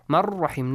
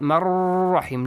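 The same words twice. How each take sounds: First: The merged r sound is kept short. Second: The merged r sound is held long. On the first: The speaker calls it right. "No extension" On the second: The speaker calls it wrong.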